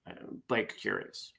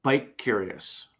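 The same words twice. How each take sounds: First: Much softer, weary repeat of the punchline; tired punchline. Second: Slow, drawn-out punchline. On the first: Real, not acted. Tired vlogger repeating the punchline, much softer. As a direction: mumble it again, worn out. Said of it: "I'm too tired to fix it". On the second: Acted. Joke teller landing the bike punchline slowly. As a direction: let the punchline land slowly.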